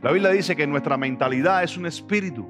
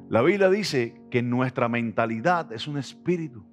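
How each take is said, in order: First: It is said fast. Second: It is said slowly.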